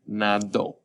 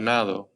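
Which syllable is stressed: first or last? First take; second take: last; first. First: The stress is on the last syllable. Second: The stress is on the first syllable. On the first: He swam, in the past. "Notice that strong ending at the end because we have the accent mark over our O" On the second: I swim habitually, in the present. "Remember in present tense, if I say I swim all the time"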